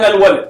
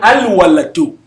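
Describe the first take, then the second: First: The word ends on the d, no vowel. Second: The word ends with a pronounced -u vowel. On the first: "That's what I'm silencing them" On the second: "if I want to pronounce the last one"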